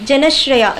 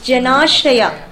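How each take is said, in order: First: The marked vowel is said short. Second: The marked vowel is stretched long. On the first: The speaker calls it wrong. "It's not Janashraya" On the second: The speaker calls it right. "you have to extend it. It's like ah"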